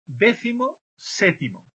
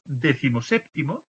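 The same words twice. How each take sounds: First: "décimo séptimo" slowly, as two separate words; raised pitch, pause between "décimo" and "séptimo". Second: "décimo séptimo" run together as one compound; no break between "décimo" and "séptimo"; joined as one word. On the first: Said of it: "Tenemos dos palabras". («décimo séptimo» despacio, en dos palabras separadas) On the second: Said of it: "cuando los pongo juntas". («décimo séptimo» junto, como una sola palabra) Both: Shown as a demonstration.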